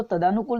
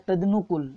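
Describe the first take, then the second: First: तदानुकूल with long "daa". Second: तदनुकूल with short "da" into "nu". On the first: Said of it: "तदानुकूल नहीं होता". (तदानुकूल में "दा" लंबा) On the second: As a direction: say तदनुकूल as tad-nu-kool. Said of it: "ये होता है तदनुकूल". (तदनुकूल में "द" छोटा) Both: Shown as a demonstration.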